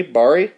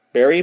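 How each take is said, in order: First: Barry with an "ah" vowel, questioning; Barry with first syllable like "bar", rising; alternate pronunciation. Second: Barry with an "air" vowel, questioning; Barry rhymed with "berry", rising as a question; trying a pronunciation. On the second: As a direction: say Barry as "BEAR-ee?". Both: Shown as a demonstration. Trying two pronunciations of name.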